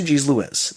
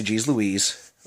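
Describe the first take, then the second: First: "Louise" ending in a short "iz"; Baltimore pronunciation. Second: Said in the usual way. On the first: Shown as a demonstration. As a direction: say Louise as "Lou-IZ", not "Lou-EEZ". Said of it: "Some sections of Baltimore say". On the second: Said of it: "Most people in America will say".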